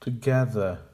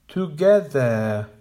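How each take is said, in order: First: "Together" as tuh-GEH-ther; correct with schwa. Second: "Together" as TOO-GE-THER, slow and even; incorrect full vowels. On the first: Teacher modelling the correct "Together". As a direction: reduce the first syllable of "Together". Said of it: "Make the weak syllables quiet". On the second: Teacher modelling the wrong "Together". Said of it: "the incorrect pronunciation". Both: Shown as a demonstration.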